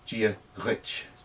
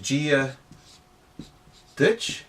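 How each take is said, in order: First: The last word begins with a softened, lenited sound. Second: The last word begins with a hard d sound. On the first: "most people would pronounce it as if it was a D H" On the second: "you can say that"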